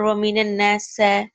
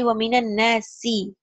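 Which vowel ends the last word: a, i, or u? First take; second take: a; i. First: The last word ends in an a vowel. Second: The last word ends in an i vowel. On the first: The speaker calls it wrong. "or waminan nasa" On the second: The speaker calls it right. "It has to be waminan nasi"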